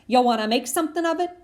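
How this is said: It is said in a tough-guy voice.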